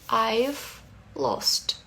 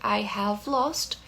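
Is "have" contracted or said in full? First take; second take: contracted; full. First: The word have is contracted onto I. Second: The word have is said in full. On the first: "a forma contraída" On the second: "ao invés de dizer I have lost"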